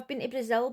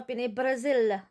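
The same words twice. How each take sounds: First: Brazil is said with a plain English accent. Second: Brazil is said with a put-on foreign accent. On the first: The speaker calls it right. "instead of saying that" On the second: The speaker calls it wrong. "she does it with an accent"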